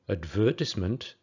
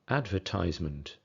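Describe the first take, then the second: First: It has the British English stress pattern. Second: It has the American English stress pattern. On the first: "A British English advertisement" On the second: "an American English advertisement"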